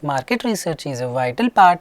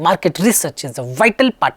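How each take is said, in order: First: The pitch swings up and down like a wave. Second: Words are hit with heavy, exaggerated stress. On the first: "No intonation means going up and down like a sine wave" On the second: "No stressing"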